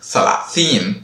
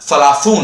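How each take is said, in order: First: The last syllable has a long ee vowel. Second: The last syllable has a long oo vowel. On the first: This is the everyday spoken form. "நம்ம ஸ்போக்கன்ல சலாசீன்" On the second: This is the formal written form. "எழுத்து வழக்குல சலாசூன் அப்படின்னு சொல்லுவாங்க"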